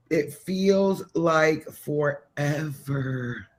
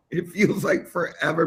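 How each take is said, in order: First: Very slow, stretched-out "feels like forever"; half-speed, lingering emphasis; drawn out. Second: Said in the usual way. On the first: Real, not acted. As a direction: drag out each word as if it never ends. Stretches words to show endless wait.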